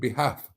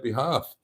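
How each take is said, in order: First: It is said in an American accent. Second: It is said in a non-American accent.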